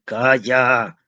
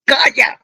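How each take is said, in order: First: Firm shout. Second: Much higher, much louder furious yell. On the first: Father cutting off his pleading son, firm and raised. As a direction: cut the son off sharply. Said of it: "gritó con tanta fuerza". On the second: Father screaming at his son so hard his glasses fall, full yell. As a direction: blast him with all your force. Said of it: "gritó con tanta fuerza que las gafas se le cayeron". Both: A narrator's reading.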